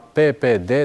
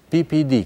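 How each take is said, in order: First: The letters are named the Romanian way. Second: The letters are named the English way.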